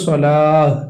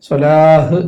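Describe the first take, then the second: The two takes are said the same way.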